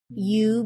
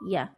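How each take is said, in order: First: The word is said fully with a clear vowel. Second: The word is said weakly with a schwa.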